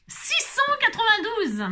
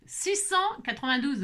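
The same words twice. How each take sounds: First: High, slowed announcement of the number; excited call. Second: Said in the usual way. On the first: Real, not acted. Calls out drawn number.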